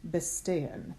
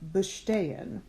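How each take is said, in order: First: The consonant before the t sounds like s. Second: The consonant before the t sounds like sh. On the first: The speaker calls it wrong. "not bestehen" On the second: The speaker calls it right. "it is still bestehen"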